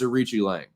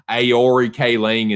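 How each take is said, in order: First: The name begins with an R sound. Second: The name begins with a vowel sound. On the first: The speaker calls it right. "No, it's Ricci Lang" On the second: The speaker calls it wrong. "I was pronouncing it Aori Kaling"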